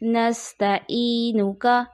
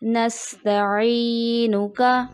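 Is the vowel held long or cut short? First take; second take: short; long. First: The vowel is said short, without lengthening. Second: The vowel is held long and drawn out. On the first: The speaker calls it wrong. "यहाँ बगैर खींचे पढ़ दिया जाता है" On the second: The speaker calls it right. "इसको दुरुस्त अदायगी ऐसे पढ़ते हैं"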